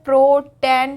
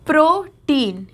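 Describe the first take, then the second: First: The last syllable sounds like 'ten'. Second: The last syllable sounds like 'teen'.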